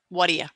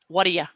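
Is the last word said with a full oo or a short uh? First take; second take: short uh; short uh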